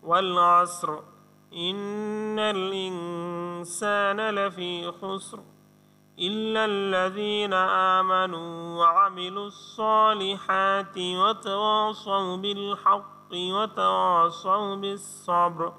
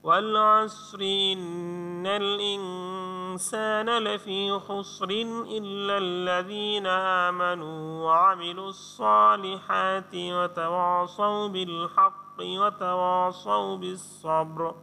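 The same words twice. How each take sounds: First: It is recited in pieces with pauses between verses. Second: It is recited joined together without pausing between verses. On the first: "ভেঙে ভেঙে পড়াটাই" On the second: "যদি মিলিয়ে পড়ি তাহলে কেমন হবে"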